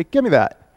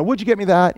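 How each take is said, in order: First: Curt order, no please; blunt command. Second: Courteous ask with the would you kept in; the roommate asking nicely for something; polite request. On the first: Pastor voicing a bossy roommate, a mild mock blunt order. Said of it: "He would just say". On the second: Pastor voicing a polite roommate, courteous. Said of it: "wouldn't just throw in the word "please" or "would you". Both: Retold or imitated.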